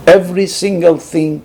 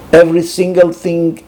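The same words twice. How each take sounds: The two takes are said the same way.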